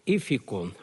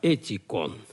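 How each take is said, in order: First: The middle consonant sounds like f. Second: The middle consonant sounds like t. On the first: "поэтому читаем уже не «эфикон»" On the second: "принято латинское произношение"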